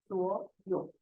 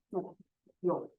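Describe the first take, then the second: First: 所有 joined, 所 rising in second tone; tone change. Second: 所 and 有 apart, each in third tone; separate third tones. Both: Shown as a demonstration. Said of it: "change the first word into second tone".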